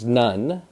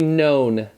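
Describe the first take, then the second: First: The vowel is short, rhyming with fun. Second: The vowel is long, rhyming with bone. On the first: "The first word is none" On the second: "but we're going to say known"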